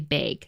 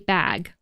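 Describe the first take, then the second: First: The word is said in a Midwestern American accent. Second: The word is said in a non-Midwestern American accent. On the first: "In the Midwest, people say bag" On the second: "I say bag"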